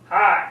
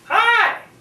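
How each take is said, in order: First: It is said in a low-pitched voice. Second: It is said in a high-pitched voice. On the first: The second character in the dialogue is speaking. "then the lower-pitched voice" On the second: The first character in the dialogue is speaking. "the high-pitched voice"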